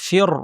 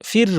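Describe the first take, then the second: First: The r is pronounced heavy and full. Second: The r is pronounced light and thin. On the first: The speaker calls it right. "শুরু থেকেই ভারী করে বলবো" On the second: The speaker calls it wrong. "ফির বলবো না"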